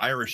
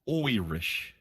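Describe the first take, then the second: First: The word begins with a plain 'eye' sound. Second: The word begins with a stage-Irish 'oy' sound. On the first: The speaker calls it wrong. "I'm said that wrong" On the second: The speaker calls it right.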